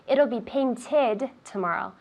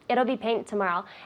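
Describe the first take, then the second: First: The -ed ending of 'painted' is fully pronounced. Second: The -ed ending of 'painted' is dropped. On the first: The speaker calls it right. "it has to be full, right? Complete" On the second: The speaker calls it wrong. "I hear it'll be paint tomorrow"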